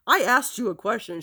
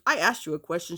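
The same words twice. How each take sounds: First: A louder, insistent mock demand; raised voice. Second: Said in the usual way. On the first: Mother demanding an answer from her child, voice raised. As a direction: retell mom snapping at an unanswered question. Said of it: "her voice just elevated". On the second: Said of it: "She goes".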